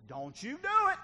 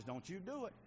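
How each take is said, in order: First: Loud, high shouted command; acted divine warning. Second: Said in the usual way. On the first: God repeating a warning to the defiant, loud shout. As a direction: raise it to a sharp, high shout. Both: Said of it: "When God says".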